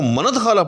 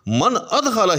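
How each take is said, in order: First: The words run together with no glottal stop. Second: A glottal stop separates the two words. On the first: The hamza is treated as a connecting hamza. The speaker calls it wrong. "हमजा वसली होता तो हम इसको मनद खाला पढ़ सकते थे, लेकिन ऐसा पढ़ना जायज़ नहीं है" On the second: The hamza is treated as a cutting hamza. The speaker calls it right. "हर सूरत के अंदर इसको मन अद खाला ही पढ़ना है"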